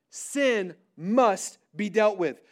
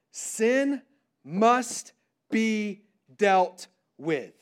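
First: "Sin must be dealt with" slow but more connected; firm restatement. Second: "sin must be dealt with" very slow, word by word; a long pause after "sin", then each word set apart; deliberate emphasis. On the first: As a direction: lean on "Sin" and "must", then run "be dealt with" together. Key point repeated more connectedly. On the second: Key point stated word by word. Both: Real, not acted.

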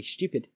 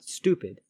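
First: STUPID said as "shtyoo-pid"; stupid with a Y glide before the U; British stupid. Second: STUPID said as "stoo-pid"; stupid with no Y glide; American stupid. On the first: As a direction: say "stupid" with a 'you' sound. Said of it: "or commonly stupid". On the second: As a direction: say "stupid" with a double-O sound. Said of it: "not stupid". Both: Shown as a demonstration.

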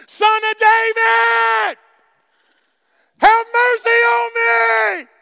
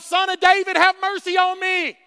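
First: Drawn-out, high screamed plea; crying out all the more, very loud and long; Blind Bartimaeus scream. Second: Raised, loud plea for mercy; high-pitched pleading call; crying out. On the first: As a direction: scream it slowly at the top of your voice. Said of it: "That was my blind Bartimaeus scream". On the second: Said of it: "he cried out". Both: Retold or imitated.

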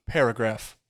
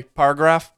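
First: PARAGRAPH in three beats, pair-uh-graph; "paragraph" with the middle syllable kept; full paragraph. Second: PARAGRAPH squeezed to par-graph; shortened paragraph. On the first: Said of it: "You say paragraph". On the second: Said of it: "Do you say paragraph?". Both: Shown as a demonstration.

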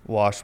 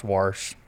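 First: "Wash" as WAHSH, with no R; standard wash. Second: "wash" with an R put in, WARSH; pronounced warsh. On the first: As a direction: say "Wash" with a plain open vowel. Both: Shown as a demonstration. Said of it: "People say a lot of shit differently".

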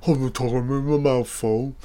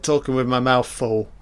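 First: Mock muffled talking through food; mouth full. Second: Said in the usual way. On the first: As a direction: garble it as if chewing a big mouthful. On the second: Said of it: "How rude. Look how rude I am".

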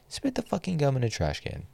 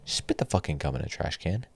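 First: Same order again, pitched much higher; fed-up demand, voice jumping up; higher, exasperated repeat of the order. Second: Said in the usual way. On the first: Real, not acted. Ranting, repeats the command.

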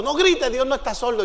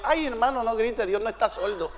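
First: Said in the usual way. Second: Soft, low shushing of a shouter; hushed rebuke. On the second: Retold or imitated. Church sister hushes the shouting visitor, soft retold rebuke. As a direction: imitate a church sister's quiet scolding.

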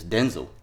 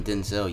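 First: "Denzel" as DEN-zul; "Denzel" ending in a short, unstressed "zl"; correct Denzel pronunciation. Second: "Denzel" as den-ZELL; the common "Denzel" with stress on ZEL; wrong Denzel pronunciation. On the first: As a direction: stress the DEN in "Denzel", swallow the second vowel. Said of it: "It's not even Denzel". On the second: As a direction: give "Denzel" a full "zell" ending. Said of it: "saying his name wrong". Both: Shown as a demonstration.

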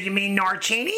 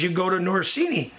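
First: "Norcini" with a ch sound, nor-CHEE-nee, asked back; "Norcini" said with a ch in the middle, as a questioning correction; corrected name. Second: "Norsini": the middle consonant is an s, not a ch; mispronounced name. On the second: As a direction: say "Norsini" with an s, nor-SEE-nee. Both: Retold or imitated.

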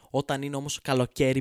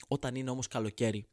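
First: «Όταν είναι όμως καλοκαίρι» said again louder; loud repeat. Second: Said in the usual way. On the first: Shown as a demonstration. Comedian repeating the summer line louder at the audience.

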